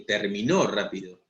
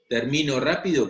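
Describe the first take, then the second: First: The stress is on the last syllable. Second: The stress is on the middle syllable. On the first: Someone else finished quickly. "si le pongo tilde, terminó, es él o, o ella terminó rápido" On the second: The speaker finishes quickly. "no le pone tilde a termino rápido, es yo termino rápido"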